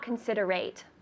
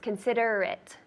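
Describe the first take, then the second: First: The last syllable sounds like 'ate'. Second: The last syllable sounds like 'it'. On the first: The speaker calls it wrong. "the only tricky part is it's not considerate" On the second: The speaker calls it right. "It's considerate. It, it. So it doesn't sound like A T E"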